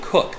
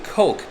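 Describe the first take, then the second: First: The vowel is a short 'oo' sound. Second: The vowel is a long 'oh' sound. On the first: The speaker calls it right. "but it's actually Cook" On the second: The speaker calls it wrong. "I've been pronouncing it Coke"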